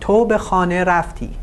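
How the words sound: The pitch falls at the end of the sentence. It is a statement. "Here the intonation of the sentence is falling"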